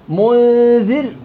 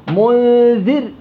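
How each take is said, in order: Both takes have the same delivery.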